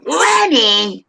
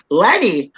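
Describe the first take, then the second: First: Higher, drawn-out call in Bronx character; mock nagging call; insistent call. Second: Short falling call in Bronx character; first call. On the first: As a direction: holler the name and stretch it out. Calls Lenny again, insisting. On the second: Pretend. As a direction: call out a name, pitch dropping. Calling for imagined Lenny in character.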